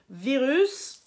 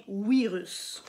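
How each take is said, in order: First: Said in the usual way. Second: "virus" becomes "wi-rus", slow; "virus" said like "oui-russe", drawn out; Japanese pronunciation. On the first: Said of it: "en japonais, ça devient virus". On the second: Shown as a demonstration. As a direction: swap the V of "virus" for a W. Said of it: "ça devient virus".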